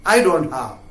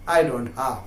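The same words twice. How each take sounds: First: Said in the usual way. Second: Drops low and soft on the repeat; hushed, dropped-down repeat; quiet. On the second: Shown as a demonstration. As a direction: let it fall away as a sad echo.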